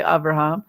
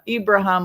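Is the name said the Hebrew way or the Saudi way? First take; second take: Hebrew; Saudi. First: The name is pronounced the Hebrew way, Abraham. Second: The name is pronounced the Saudi way, Ibrahim. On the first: "the American, the Hebrew way" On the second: "If you say it like this uh, Saudi way"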